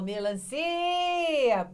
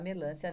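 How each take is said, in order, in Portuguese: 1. O acento cai na sílaba ci. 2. O acento cai na sílaba lan. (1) "ou melancia é o si que tem o som estendido" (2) "Ninguém vai mais falar melancia nessa vida ou achar que o LAM é sílaba tônica"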